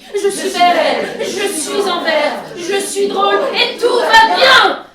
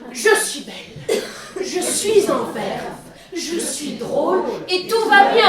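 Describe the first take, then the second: First: It is said loudly, with lots of energy. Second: It is said calmly, without extra energy.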